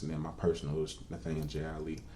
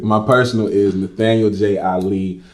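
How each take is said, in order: First: It is said quietly. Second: It is said loudly.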